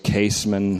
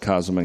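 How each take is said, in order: First: The name is said in an English-style way. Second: The name is said in a German-style way. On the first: "some people say Kaseman" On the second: "I say Kaseman because it's closer to the way Germans pronounce it"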